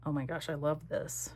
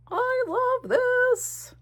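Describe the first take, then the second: First: Said in the usual way. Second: High, slow, drawn-out gushing; delighted singsong. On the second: Real, not acted. Crafter gushing over her page in a high, slow singsong. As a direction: sing the words out in delight.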